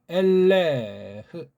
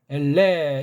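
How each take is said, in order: First: The final h sound is clearly pronounced. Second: The final h sound is left silent. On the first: The speaker calls it right. "제가 이제 우문 읽기로 읽어보겠습니다" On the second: The speaker calls it wrong. "해자를 묵음으로 처리해요"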